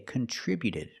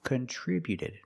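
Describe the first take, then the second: First: The T before -ed is a quick D. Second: The same.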